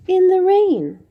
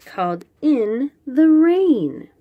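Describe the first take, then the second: First: Higher and louder, dramatic title read; title said with flair. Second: Said in the usual way. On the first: Shown as a demonstration. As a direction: present the title like a showpiece. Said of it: "title repeated with emphasis". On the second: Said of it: "announcing the book title".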